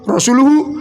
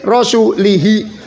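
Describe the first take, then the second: First: The word ends with the sound hu. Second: The word ends with the sound hi. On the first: The messenger also disowns the idolaters. The speaker calls it right. "Tadi kan hu kan? Yang benar kan?" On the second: God disowns the idolaters and the messenger. The speaker calls it wrong. "Ini baca rasulihi"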